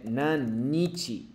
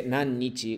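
First: Nannichi drawn out slowly, with a long double n; teacher models Nannichi slowly and carefully; slow model of Nannichi with the long n held; clear Nannichi. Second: Said in the usual way. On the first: Shown as a demonstration. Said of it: "En lugar de Nanyou, si dice". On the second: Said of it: "Y entonces aquí".

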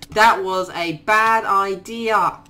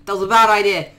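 First: Drawn out, slow, every word weighed; slow regret. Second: Said in the usual way. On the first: Real, not acted. Gamer regretting his move, slow rueful repeat. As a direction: repeat it slowly to let it sink in.

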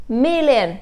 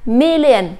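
First: Million with the first syllable MIL stressed, the rest falling. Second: Said in the usual way. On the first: Shown as a demonstration. Teacher drilling students on Million, first syllable stressed. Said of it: "chúng ta nhấn âm đầu". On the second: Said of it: "đưa ra phần phiên âm".

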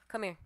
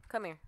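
The two takes are said the same way.

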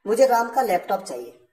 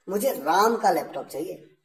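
First: राम का slightly lifted, the rest plain; stress on राम. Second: राम का held with a rising tune; stress on राम again. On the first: Teacher stressing राम for students. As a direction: lean on राम to show whose laptop. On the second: Teacher repeating the example, stressing राम. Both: Shown as a demonstration. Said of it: "यानी महत्व किस बात पे दिया गया? राम पे।".

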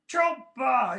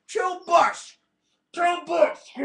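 First: Said in the usual way. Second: Higher, louder goofy voice on "Chill bus"; silly put-on voice. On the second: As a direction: say "Chill bus" in a squeezed cartoon voice. Mock voice, "can't understand me.

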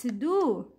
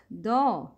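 First: "do" as a pure "doo"; full dhamma. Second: "do" as an open "doh"; incomplete dhamma. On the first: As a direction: round "do" all the way to oo. ("do" with a complete u) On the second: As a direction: let "do" fall short into oh. ("do" with an o vowel, like doh) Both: Shown as a demonstration. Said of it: "not do".

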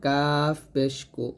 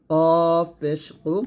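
First: কাফ পেশ কু with a light k; thin kaf. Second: কফ পেশ কু, drawn out with heavy back k; thick qof. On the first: Teacher gives the lighter twin, thin কাফ. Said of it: "এটা পাতলা করে". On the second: Teacher contrasts qof with kaf, heavy কফ. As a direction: stretch a thick কফ and কু. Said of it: "কফ মোটা". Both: Shown as a demonstration.

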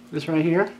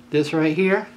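Both takes have the same delivery.

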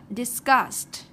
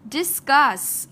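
First: "discussed" ending in a crisp st; ED after S. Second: "Discuss" loud, ending in a clear s. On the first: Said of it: "sau đây chúng ta discussed". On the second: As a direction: finish "Discuss" on s alone. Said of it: "chúng ta có chữ S". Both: Shown as a demonstration.

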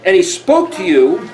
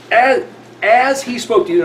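First: Said in the usual way. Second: "as" pitched high and held out; deliberate stress on the opening "as"; emphasis on "as". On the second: Shown as a demonstration. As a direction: lean hard on the word "as". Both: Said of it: "now I'm emphasizing English".

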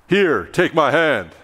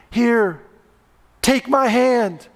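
First: Slow, slightly lower offer from a teacher you don't trust; lightly voiced coach with a shadow behind his eyes; hint of a mean teacher. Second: Higher, slow, gentle offer of a hand; lightly voiced four-year-old reaching down to help; sweet little girl. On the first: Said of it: "Your high school calculus teacher". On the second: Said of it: "Sweet Susie".

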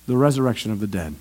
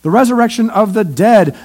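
First: Soft echo. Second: Said in the usual way. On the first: Real, not acted.

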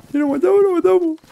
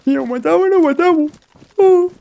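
First: Put-on much higher Argentine accent, a bit less loud; Argentine impression again. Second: Much higher, louder Argentine accent imitating the car guy; Argentine impression. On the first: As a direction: repeat the Argentine guy, pitched way up. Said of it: "el argentino del coche". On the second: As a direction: play the Argentine from the car, pitched way up. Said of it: "Como diría aquel, el argentino del coche".

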